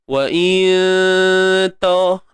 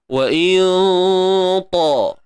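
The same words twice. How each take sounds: First: The nasal hum before ta is light and thin. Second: The nasal hum before ta is heavy and dark. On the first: The speaker calls it wrong. "Kalau kita buat nipis" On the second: The speaker calls it right. "maka dengung pun tebal"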